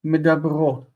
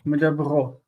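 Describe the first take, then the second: No difference in how they are said.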